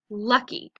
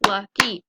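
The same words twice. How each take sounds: First: Said in the usual way. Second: "lucky" in two beats, LUCK, then Y, louder; syllable-by-syllable "lucky"; split into syllables. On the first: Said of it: "So let's practice them". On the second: Shown as a demonstration. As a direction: break "lucky" between its syllables, both punched. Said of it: "Two syllables".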